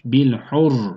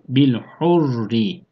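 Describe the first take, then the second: First: The word ends on a heavy, thick r. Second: The r is light and thin, ending in a vowel. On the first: "vakıf halinde kalın" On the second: "vasıl halinde ise ince okunur"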